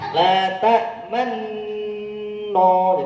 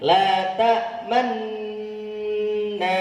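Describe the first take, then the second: First: The last syllable ends with a rounded 'o' vowel. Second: The last syllable ends with an open 'a' vowel. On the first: The speaker calls it wrong. "Kalau tidak kembali jadi no" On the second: The speaker calls it right. "Jadi kembali"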